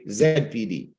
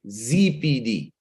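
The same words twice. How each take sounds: First: It is said the non-American way, 'zed pee dee'. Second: It is said the American way, 'zee pee dee'.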